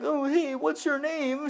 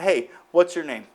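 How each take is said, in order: First: It sounds hesitant and nervous. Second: It sounds bold and confident.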